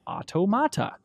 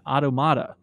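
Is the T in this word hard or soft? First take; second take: hard; soft. First: The T is pronounced hard. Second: The T is pronounced soft. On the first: The speaker calls it right. "It needs the hard T" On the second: The speaker calls it wrong. "with a soft T"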